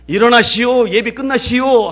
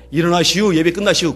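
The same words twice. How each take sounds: First: Loud, high call to get up. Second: Said in the usual way. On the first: Retold or imitated. Leper rousing the weeping professor after the service, calling loudly. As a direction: call out firmly so he hears.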